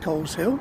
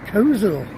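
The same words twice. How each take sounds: First: The name is said as Cole's hill. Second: The name is said in the local way. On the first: This is how an outsider would read the name. "you'd be forgiven for thinking that this place was called Coleshill, because it's named for the fact that the town is on a hill above the River Cole" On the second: This is how local people say the name. "The way they pronounce it is Coleshill"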